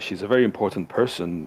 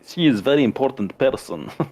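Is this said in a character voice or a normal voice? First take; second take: normal voice; character voice. First: It is said in the speaker's ordinary voice. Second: It is said in a put-on character voice.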